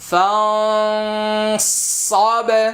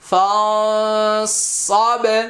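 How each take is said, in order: No difference in how they are said.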